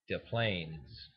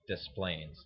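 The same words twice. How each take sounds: First: The s in 'Des' is silent. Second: The s in 'Des' is pronounced. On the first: The speaker calls it right. "Correctly pronounced, it would be" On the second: The speaker calls it wrong. "but everybody calls it Des Plaines. D E S Plains"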